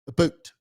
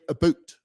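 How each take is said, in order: First: It is said in a Canadian accent. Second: It is said in a Canadian accent.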